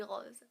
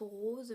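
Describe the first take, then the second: First: "rose" with an open, short o, like "rosse"; my way of saying rose. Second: "rose" with a closed, long o, like "rôze"; the viewers' way of saying rose. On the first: Vlogger contrasting her own rose with the viewers', open o. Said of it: "mais moi je dis rose". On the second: Vlogger showing viewers how they may say rose, closed o. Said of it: "Vous dites peut-être rose". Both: Shown as a demonstration.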